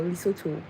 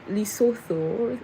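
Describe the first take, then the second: First: "Lesotho" pronounced li-SO-tu, no th sound. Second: "Lesotho" pronounced li-SO-tho, with a th sound. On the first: Offering viewers the other pronunciation, Lesotho with a T. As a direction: say "Lesotho" with a hard t, ending like "too". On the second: Asking viewers about the right pronunciation, Lesotho with TH. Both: Shown as a demonstration. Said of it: "did I pronounce it right?".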